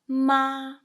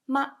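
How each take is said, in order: First: The syllable is held long on a level pitch. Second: The syllable is light and cut short. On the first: "The first time again is a ma" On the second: "the fifth time is actually ma, ma. Quite short"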